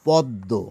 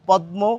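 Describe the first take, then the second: First: The m is silent and the d is doubled. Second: The m is pronounced after a single d. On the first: This is how people actually say it. "আমরা বলে থাকি" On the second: This is how the spelling suggests it should be said. "আমাদের তো বলা উচিত ছিল"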